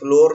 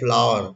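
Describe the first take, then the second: First: It rhymes with 'door', one syllable. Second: It sounds like 'flower', with an 'ow' vowel. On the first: The speaker calls it wrong. "लेकिन ये फ्लोर नहीं है" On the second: The speaker calls it right. "आटा का pronunciation होता है फ्लावर"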